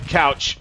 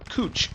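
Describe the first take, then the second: First: The vowel sounds like the one in 'cow'. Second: The vowel sounds like the one in 'moo'. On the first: The speaker calls it wrong. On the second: The speaker calls it right.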